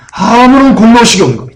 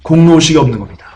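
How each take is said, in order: First: 아무런 lifted higher and hit hard; emphatic restatement driving the point home; stress on 아무런. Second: Said in the usual way. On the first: Shown as a demonstration. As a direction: push 아무런 up, then let the phrase fall. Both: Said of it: "이 엠포시 모이로스의 핵심은 뭐냐".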